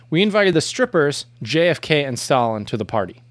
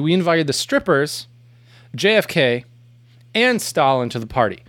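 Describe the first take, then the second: First: There is no pause after 'JFK'. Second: There is a pause after 'JFK'. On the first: JFK and Stalin are the strippers. "without the Oxford commas, it would be" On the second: JFK and Stalin are guests, not the strippers. "With the Oxford comma, it would be"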